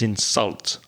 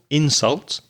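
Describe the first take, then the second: First: The stress is on the second syllable. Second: The stress is on the first syllable. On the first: It is a verb. "So the verb is insult" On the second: It is a noun. "The noun again, stress the first syllable"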